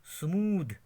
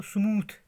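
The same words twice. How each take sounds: First: स्मूद with a voiced 'd' ending; corrected pronunciation. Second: स्मूथ with a breathy 'th' ending; common mispronunciation. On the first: Teacher modelling the word for learners, corrected pronunciation. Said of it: "मगर स्मूथ नहीं है". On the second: Teacher quoting how learners read it, common mispronunciation. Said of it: "हम पढ़ते हैं इसको स्मूथ". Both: Shown as a demonstration.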